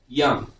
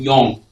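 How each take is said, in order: First: The vowel is a short, open 'uh' sound. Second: The vowel is a rounded 'o' sound. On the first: The speaker calls it right. "you're just slightly opening your mouth and saying the sound" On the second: The speaker calls it wrong. "people mispronounce this sound as O by saying young"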